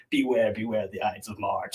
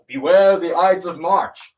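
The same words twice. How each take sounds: First: Low, ominous poster warning. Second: Loud, high, drawn-out cry of warning; mock yell. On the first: Retold or imitated. Reading out the teaser posters put up around town, ominous. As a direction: intone it low like a mysterious warning. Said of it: "seem very ominous". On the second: Man in the town square warns Caesar, yelling. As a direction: call it out slowly like a soothsayer in the square. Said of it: "this man yells".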